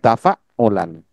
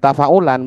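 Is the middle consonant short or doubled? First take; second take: doubled; short. First: The middle consonant is held and doubled. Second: The middle consonant is short. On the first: The speaker calls it right. "Ada ain tasydid di situ" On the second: The speaker calls it wrong.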